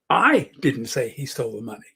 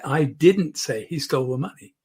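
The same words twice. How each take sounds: First: The stress falls on the word I. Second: The stress falls on the word didn't. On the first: Someone else said it. "Somebody else said it. It wasn't me" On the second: It is a flat denial. "putting the emphasis on didn't"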